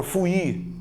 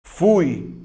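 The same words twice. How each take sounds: First: "fui" wrongly said fu-Í; split into syllables. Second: "fui" as one loud syllable, stressed U; stronger U. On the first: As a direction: break "fui" in two, stress on the I. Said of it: "também você não fala fui". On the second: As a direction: hit U in "fui" and let I glide off. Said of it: "a letra U tem o som mais forte". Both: Shown as a demonstration.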